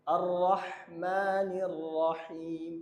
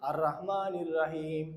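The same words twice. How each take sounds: First: Chanted, very slow, drawn-out রহমানির; correct chanted recitation. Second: Slow, thin র in রহমানির; wrong recitation. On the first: Chanted, teacher models the correct verse recitation. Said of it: "শুরুতে আমরা ভুল করি". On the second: Teacher imitates how students misread the verse. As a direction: imitate the common mistake. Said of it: "এই রটা আমরা এরকম পড়ি". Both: Shown as a demonstration.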